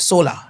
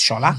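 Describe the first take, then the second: First: The name begins with a plain s sound. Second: The name begins with an sh sound. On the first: The speaker calls it wrong. "I said solar" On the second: The speaker calls it right. "it's not solar, it's shola"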